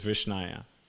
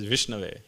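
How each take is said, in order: First: The last syllable begins with a 'y' sound. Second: The last syllable begins with a 'v' sound. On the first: Someone ignorant is trying to say it. The speaker calls it wrong. "the fool doesn't know how to say it properly. So he says Vishnaya" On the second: Someone learned is saying it. The speaker calls it right. "He says it properly"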